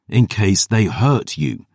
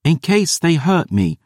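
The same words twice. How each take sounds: First: Slow, pointed, each word bitten off; snapped. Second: Put-on much higher, defiant girl; girl defying her guardian, much higher. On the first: Acted. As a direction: lean hard on it, angry and slow. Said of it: "I snapped". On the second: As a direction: chin up, throw it back at him. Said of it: "She squared her shoulders defiant".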